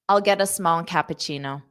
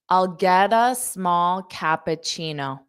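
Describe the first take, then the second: First: The sentence is spoken quickly. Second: The sentence is spoken slowly. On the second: "I'll say it slow and then fast"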